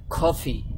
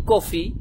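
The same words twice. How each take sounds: First: কফি with an aspirated "kh" at the start; British-American pronunciation. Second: Said in the usual way. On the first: Shown as a demonstration. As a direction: say কফি as "KHO-fi", with a puff of air. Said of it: "ওরা বলে কফি". (কফি-র "ক"-কে "খ"-এর মতো উচ্চারণ) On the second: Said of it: "আমরা বলি কফি".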